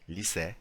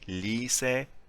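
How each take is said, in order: First: The final vowel is kept short. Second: The final vowel is drawn out long.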